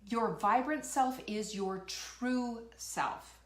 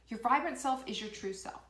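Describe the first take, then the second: First: Slow, deliberate declaration; slow emphasis. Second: Said in the usual way. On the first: Real, not acted. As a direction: lean on each word, slowly. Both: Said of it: "I'm gonna tell you right now".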